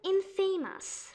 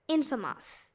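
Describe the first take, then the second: First: The ending sounds like the word famous. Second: The ending does not sound like famous. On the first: The speaker calls it wrong. "They say it infamous" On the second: The speaker calls it right. "Famous is not really pronounced as it shows"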